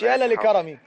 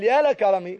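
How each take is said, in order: First: Two 'la' syllables are said before 'karami'. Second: One 'la' syllable is said before 'karami'. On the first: The speaker calls it wrong. "ما تقولش اتنين لام، مش يا لا لكرمي" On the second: The speaker calls it right. "هقول يا لكرمي"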